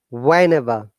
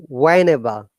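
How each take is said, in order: Both takes have the same delivery.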